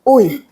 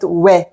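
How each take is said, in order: First: The syllable glides from u toward i. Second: The syllable sounds like we. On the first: This is how it was said long ago. The speaker calls it wrong. "Maybe in the Joseon Dynasty, uh, they said ui like this" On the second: This is how it is said today. The speaker calls it right. "we don't say ui like this, just we"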